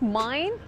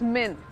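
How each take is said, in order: First: The vowel is a long 'eye' sound. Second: The vowel is a short 'ih' sound. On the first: The speaker calls it wrong. "It's not माइन" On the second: The speaker calls it right. "It's मिन"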